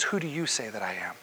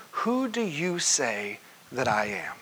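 First: Quiet pointed question. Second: Said in the usual way. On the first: Retold or imitated. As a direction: lower and softer, asked intimately. Jesus' question repeated, pointed.

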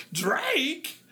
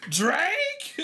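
First: A falling, puzzled "[name]?" with a touch of disbelief; surprised [name]. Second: Incredulous [name]. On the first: Host reacting to a listener's message, puzzled and surprised. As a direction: let "[name]?" drop as if half asking. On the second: Host reacting to a listener's message, high incredulous rise. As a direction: push "[name]?" up in mock disbelief. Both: Retold or imitated.

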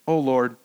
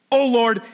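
First: Said in the usual way. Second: Louder, raised cry of complaint to God; aggrieved Jonah. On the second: Shown as a demonstration. Preacher redoes Jonah's prayer with proper aggrieved tone. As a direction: call out to God like a sulking prophet. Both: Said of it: "wait, let me get the right, uh, tone here".

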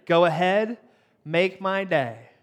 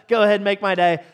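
First: "Go ahead, make my day." with "make my day" drawn out slowly; slow menacing Clint Eastwood delivery; slow tough-guy line. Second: Said in the usual way. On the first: Shown as a demonstration. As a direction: hold back, then crawl through "make my day". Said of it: "So hear me out, right? Are you ready?". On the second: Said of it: "Clint Eastwood's favorite line".

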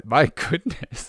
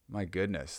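First: Higher, drawn-out, slow gasp of amazement; amazed exclamation. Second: Hushed aside. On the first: Reading a saucy t-shirt aloud, slow amazed exclamation. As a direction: savour the shock, stretching it slowly. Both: Real, not acted. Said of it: "this is a saucy t-shirt".

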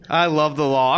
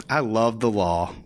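First: Said in the usual way. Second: Deadpan. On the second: Shown as a demonstration. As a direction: mutter "I love the law" flatly to yourself. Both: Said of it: "You know what?".

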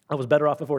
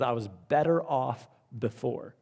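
First: Said in the usual way. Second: Softer, rueful voicing of the ruined winner; regretful quote. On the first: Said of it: "repeated for emphasis". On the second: Preacher voices the lottery winner's regret softly. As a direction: quietly quote his regret. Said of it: "He says".

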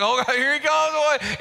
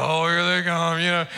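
First: Giddy, higher-pitched mock crush reaction; giddy excitement. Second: Low, unimpressed mock greeting of a spouse; long-married unenthusiasm. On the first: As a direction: act out someone giddy at seeing their crush. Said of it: "you kinda get a little giddy". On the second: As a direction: act out a jaded spouse, pitch dropped. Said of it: "you've been married for a long time".

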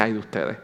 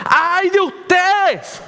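First: Ay de ustedes said low and soft, just mentioned; quietly cite the phrase ay de ustedes; soft quoted woe. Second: Woe thundered high, loud and slow; stern woe cry. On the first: Shown as a demonstration. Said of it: "cómo llega a este momento en que dice". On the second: Retold or imitated. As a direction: pronounce judgment, ay de ustedes. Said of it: "el tono de lo que está diciendo".

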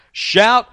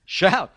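First: Loud, high call to shout; Shout, loud and high as a command. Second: A chuckled echo of Shout; laughing repeat. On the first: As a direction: call out Shout with full force. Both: Shown as a demonstration.

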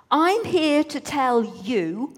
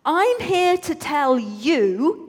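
First: Slow announcement. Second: Bigger slow announcement. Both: A narrator's reading. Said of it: "No, actually".

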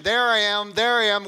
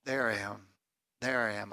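First: Loud, high preacher's cry; impassioned declaration. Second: Soft, low, tender declaration; hushed reassurance. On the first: Preacher voicing Jesus found in the Old Testament, impassioned. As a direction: proclaim it at full force. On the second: Preacher voicing Jesus to confused disciples, hushed. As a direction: say it gently, dropping low. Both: Acted.

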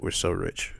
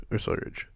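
First: Said in the usual way. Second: Whispered mock boast. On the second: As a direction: whisper it as an aside. Repeated as a whisper.

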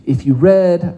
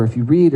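First: "read" said like the colour red; past-tense "read", rhyming with bed. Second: "read" said like reed; present-tense "read", rhyming with need. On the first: Preacher addressing those who know the commentaries, "read" pronounced red. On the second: Preacher widening it to anyone who reads, "read" pronounced reed. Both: Real, not acted.

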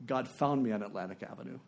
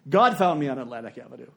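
First: Soft, low reading of a letter; understated, lowered voice; hushed reading. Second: Firm, declared stress on "God"; emphatic repeat. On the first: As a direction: read it quietly and reverently. First reading of the letter's key line. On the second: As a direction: hit "God" hard, then settle lower. Repeats key line for emphasis. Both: Retold or imitated.

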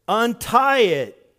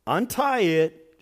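First: "untie it" slow and louder, UNTIE hit hard; stress on untie. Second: "Untie it" slowed, UNTIE leaned on and falling; stress on untie. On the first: Pastor repeating the command so the church hears, slow loud stress. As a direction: punch "untie" so they catch it. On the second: Pastor stressing the command to his congregation, slow emphatic. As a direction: draw out "Untie" then drop. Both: Shown as a demonstration. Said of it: "to catch this".

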